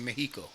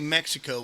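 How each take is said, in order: First: The word is said with a Spanish pronunciation. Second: The word is said with an English pronunciation. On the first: "You say Mexico" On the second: "you don't say Mexico when you speak in Spanish"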